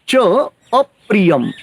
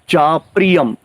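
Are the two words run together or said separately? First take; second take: separately; run together. First: The two words are said separately. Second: The two words merge into one word.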